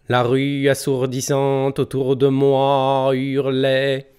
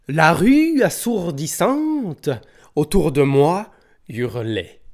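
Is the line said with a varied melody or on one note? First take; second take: monotone; melodic. First: The pitch stays on one single note. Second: The pitch moves up and down naturally. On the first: "Je viens de réciter ce vers sur une seule note" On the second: "Ces petits airs qu'on chante naturellement lorsqu'on parle"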